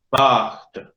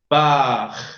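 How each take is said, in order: First: The word ends with a clear T sound. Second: The word ends without a final T sound. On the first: The speaker calls it right. "El francés pronuncia hasta la T inclusive" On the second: The speaker calls it wrong. "Si no fuera por esa E, la palabra puerta se pronunciaría paj"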